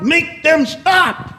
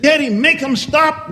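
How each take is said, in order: First: Slow, high desperate shout; child shouting. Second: Put-on high, pleading cry of a little boy; child pleading. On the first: Acted. Boy in his daddy's lap shouting at the stage, slow high yell. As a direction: draw out the plea as a frantic yell. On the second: Little boy begging his daddy during the play, high pleading cry. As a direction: beg daddy to make it stop. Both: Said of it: "Timmy jumped in his daddy's lap and said".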